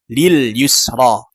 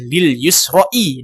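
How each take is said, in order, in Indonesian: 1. Kata itu diakhiri vokal 'a' biasa. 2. Kata itu diakhiri vokal 'i' tambahan. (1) "secara realita tetap dibaca lil yusro" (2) "seakan-akan kita mengatakan lil yusro'i dalam imajinasi"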